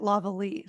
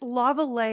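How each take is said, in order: First: The name is pronounced with an English sound. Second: The name is pronounced with a French sound. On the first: This is how another family says the name. "they pronounced it Lavallee" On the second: This is how the family says the name. "now you sound French"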